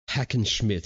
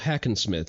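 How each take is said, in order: First: The name ends with a German 'schmidt' sound. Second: The name ends with an English 'smith' sound. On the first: The speaker calls it right. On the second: The speaker calls it wrong.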